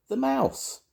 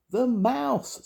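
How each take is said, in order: First: Extremely high squeaky voice; mouse squeak. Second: Very high, forceful mouse squeak; loudest squeak. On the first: Sam telling Grandma who he is, squeaky. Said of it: "squeaked Sam Squeak". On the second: Sam repeating for deaf Grandma, loudest squeak. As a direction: squeak it out with full effort. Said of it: "in his very loudest squeak". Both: A narrator's reading.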